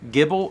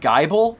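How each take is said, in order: First: The first vowel is a short i sound. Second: The first vowel is a long eye sound.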